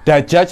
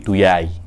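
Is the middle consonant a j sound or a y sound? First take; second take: j; y. First: The middle consonant is a j sound. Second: The middle consonant is a y sound.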